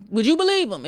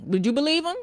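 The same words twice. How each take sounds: First: Believe hit louder with a falling end; firm falling question, believe stressed; pointed question. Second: Doubtful rising question; questioning rise. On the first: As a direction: press believe and let it drop. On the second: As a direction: ask it like you doubt him, rising on believe. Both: Shown as a demonstration.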